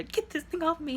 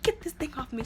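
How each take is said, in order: First: Much higher, urgent imitated cry; mock frantic demand. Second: Higher, insistent imitated demand; a hammed-up order to get it off; mock demand. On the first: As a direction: push it up into a near-panicked plea. Telling the brother, more urgent. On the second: Woman demands necklace removed.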